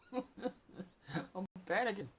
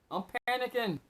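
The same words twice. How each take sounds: First: Slow, laughing through the words; laughing, drawn out. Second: Said in the usual way. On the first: Real, not acted. Admitting his own panic over lost money, slow and laughing. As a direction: let it dissolve into a slow laugh.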